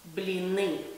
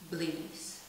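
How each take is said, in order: First: The word ends with a vowel and no 's' sound. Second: The word ends with an 's' sound. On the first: The speaker calls it right. "It's blini" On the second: The speaker calls it wrong. "the correct pronunciation of this word is actually not blinis"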